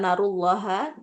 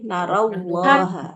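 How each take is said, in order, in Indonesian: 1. Konsonan di tengah adalah bunyi l. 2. Konsonan di tengah adalah bunyi w. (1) "bukan narullaha" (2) "tapi narawwaha"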